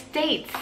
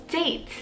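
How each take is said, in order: The two takes are said the same way.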